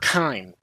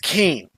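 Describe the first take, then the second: First: The vowel sounds like the one in 'line'. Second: The vowel sounds like the one in 'lane'. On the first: The speaker calls it wrong. "His name is not Kine" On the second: The speaker calls it right. "it's Kane"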